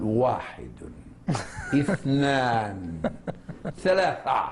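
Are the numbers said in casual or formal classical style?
formal. The numbers are said in grand classical Arabic. The counter insists on formal classical Arabic. "يفخم في كل شيء"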